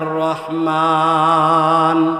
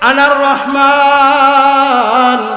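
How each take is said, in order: First: The word is said short and plain. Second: The word is stretched out long. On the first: "শুধু এভাবে না" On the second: "টান দিবেন"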